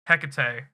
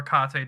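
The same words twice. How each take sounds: First: "Hecate" as HEK-uh-tay; one pronunciation variant. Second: "Hecate" as heh-KAH-tay; alternative pronunciation. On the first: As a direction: stress the first syllable of "Hecate". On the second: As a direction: stress the middle syllable of "Hecate". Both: Shown as a demonstration. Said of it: "depending on how you say it".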